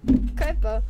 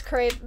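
First: Crêpe with short E and released "puh"; clumsy French crêpe, ending in a little "uh"; attempted French pronunciation. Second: Said in the usual way. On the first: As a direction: try crêpe the French way, "krep-uh". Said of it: "I said that so bad". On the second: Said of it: "pronounced it crepe in, like, in, like, English".

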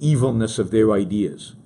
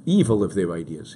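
First: "evilness" said with -ness on the end. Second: "Evil" said with no -ness ending; without the ness. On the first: Using "evilness" with the ness suffix before correcting it. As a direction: say "evilness", keeping the ness ending. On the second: Correcting "evilness" by dropping the ness ending. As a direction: drop the ness and say just "Evil". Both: Shown as a demonstration. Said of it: "There's no ness at the end".

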